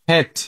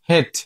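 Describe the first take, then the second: First: The vowel is short, between 'i' and 'e'. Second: The same.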